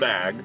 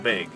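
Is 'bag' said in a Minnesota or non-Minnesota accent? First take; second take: non-Minnesota; Minnesota. First: The word is said without a Minnesota accent. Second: The word is said with a Minnesota accent. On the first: The speaker calls it right. "This is a bag" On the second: The speaker calls it wrong. "not a bag"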